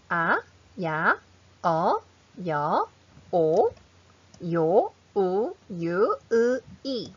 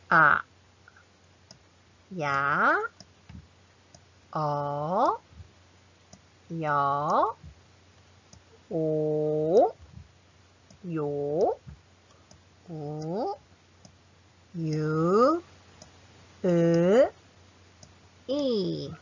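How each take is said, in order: First: The vowels are said very fast. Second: The vowels are said slowly. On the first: "Really fastest, the fastest pronunciation" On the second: "let's practice slowly"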